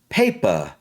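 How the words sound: The P is strong and the R is light. This is how the listeners' accent would say it. "you're probably going to pronounce the P strongly, and the R is obviously still going to be light"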